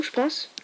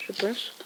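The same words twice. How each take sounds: First: Said in the usual way. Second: Je pense chuchoté tout bas, en aparté. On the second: Real, not acted. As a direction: redit pense en murmure pour soi. Répété en chuchotant. (je pense, glissé à voix basse comme un aparté)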